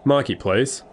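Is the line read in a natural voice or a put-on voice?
natural. It is read in the reader's ordinary voice. The speaker calls it wrong.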